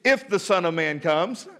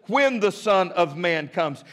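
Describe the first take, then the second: First: "If" lifted with a questioning rise; "If" pointed, rising, the wrong take; stress on IF. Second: "When" weighted and firm, falling; "When" set down with certainty, the right take; stress on WHEN. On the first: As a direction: lean on "If" as the doubtful version. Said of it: "Notice it doesn't say". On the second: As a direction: hit "When" emphatically. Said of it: "It is very emphatic". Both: Shown as a demonstration.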